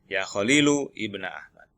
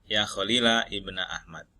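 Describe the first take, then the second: First: The name ends with a short u vowel. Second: The name ends with a short a vowel. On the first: The speaker calls it wrong. "Ini yang dhammah" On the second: The speaker calls it right. "boleh juga dibaca dengan nasab Khalilnya ini"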